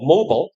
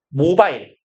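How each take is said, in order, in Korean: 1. 끝소리는 줄어든 'bl' 소리예요. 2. 끝소리는 온전한 'bile' 음절이에요. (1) "그 영어식 발음은 모블에 가까워요" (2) "우리가 이라고 보통 있는데"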